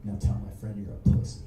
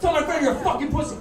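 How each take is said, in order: First: Quick, very low acted order; low menace. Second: Loud, high acted shout; furious order. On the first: Dave still grips the skinhead, giving a low menacing order. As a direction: act out a controlled threat, pitched right down. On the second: Dave punches the skinhead and repeats himself, furious shout. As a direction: act out yelling the order in his face.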